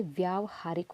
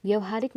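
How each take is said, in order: First: Long व्या in व्यावहारिक; right form व्यावहारिक. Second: व्यवहारिक said with short व्य; short first vowel in व्यवहारिक, the wrong form. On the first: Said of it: "व्यावहारिक होता है". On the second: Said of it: "व्यवहारिक नहीं होता है". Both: Shown as a demonstration.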